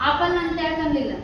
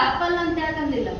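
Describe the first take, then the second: No difference in how they are said.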